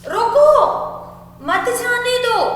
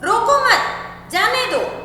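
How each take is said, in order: First: The pause falls right after the first word. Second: The pause falls right after the second word. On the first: The person should be stopped from leaving. "उस व्यक्ति को हम रुकने के लिए बोल रहे हैं" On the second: The person should be allowed to leave. "मैं उस व्यक्ति को रोकना नहीं चाहती हूँ"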